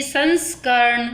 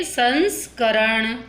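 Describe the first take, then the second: First: संस्करण ending in joined "karn"; faulty half r. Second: संस्करण slowly, ending "ka-ran"; full r. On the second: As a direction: give the r its vowel in संस्करण, drawn out. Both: Shown as a demonstration. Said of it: "पूरा र है ये".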